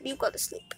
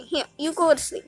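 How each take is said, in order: First: Whispered "You go to sleep". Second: Higher, quick coo of "go to sleep"; soft pet talk. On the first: Whispering to a dozing cat, hushed. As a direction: hush it so the cat stays asleep. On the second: Soothing a kitten to sleep, sweetly cooing. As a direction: coax the cat to sleep. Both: Real, not acted. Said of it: "have to be quiet 'cause he's asleep".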